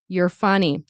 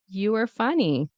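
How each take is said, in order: First: 'You are' is contracted into one quick syllable. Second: 'You are' is reduced and run together. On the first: "in fast speech, we will reduce it to you're" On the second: "in natural reduction"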